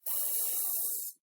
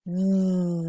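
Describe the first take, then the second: First: The th sound is voiceless, with no buzzing. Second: The th sound is voiced, with a buzzing throat. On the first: "without the buzzing V sound" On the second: "That's when we feel our throat vibrate"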